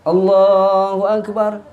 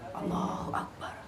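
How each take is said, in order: First: It is said loudly and clearly. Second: It is said quietly, almost whispered. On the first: The people praying behind can follow along. The speaker calls it right. "jadi suaranya biar kencengan imam, biar lantang" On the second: The people praying behind cannot hear it. The speaker calls it wrong. "Imam kalau berbisik pelan-pelan enggak kedengeran"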